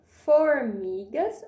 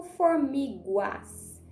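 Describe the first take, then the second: First: "Formigas" slow, with a plain hard "gas" ending; final GAS. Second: "formiguas" slow, with a "gwas" ending; final GUAS. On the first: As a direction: stretch "Formigas", no w after the g. ("Formigas" pausado, com "gas" normal) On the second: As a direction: put a w after the g in "formiguas". ("formiguas" pausado, errado, com som "guas") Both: Shown as a demonstration. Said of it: "Será que eu vou usar o go ou go".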